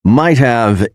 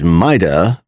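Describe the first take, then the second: First: Said in the usual way. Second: "mighta" as MITE-uh; casual blended "mighta", no v; reduced might have. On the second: Shown as a demonstration. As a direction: say "mighta" with only "uh" left of have. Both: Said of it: "is pronounced as".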